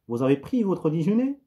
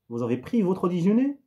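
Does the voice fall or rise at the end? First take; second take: rise; rise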